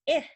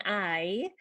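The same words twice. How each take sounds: First: "I" said as a short "ih". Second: "I" said as the letter name "eye"; long I. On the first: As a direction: give "I" the brief vowel of icky. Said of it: "the short sound is". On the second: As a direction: stretch "I" as "eye", as in ice cream. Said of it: "saying the letter name again". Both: Shown as a demonstration.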